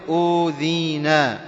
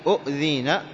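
First: أوذينا slowly, with a long first "oo"; slow, smooth "oo-dhee-naa" for أوذينا; madd vowel. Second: أؤذينا with a catch after short "u"; أؤذينا as "u'-dheena", glottal stop sounded; original two-hamza form. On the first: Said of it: "وكذلك ما يماثلها". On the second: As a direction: cut the first vowel of أؤذينا at the hamza. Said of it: "يعني أؤذينا". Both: Shown as a demonstration.

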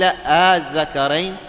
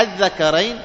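First: "الذكرين" slow, first vowel held long; questioning hamza, lengthened. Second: Plain. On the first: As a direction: stretch the opening آ of الذكرين. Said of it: "قيل". ("الذكرين" بمد الاستفهام) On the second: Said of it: "هي أصلها". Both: Shown as a demonstration.

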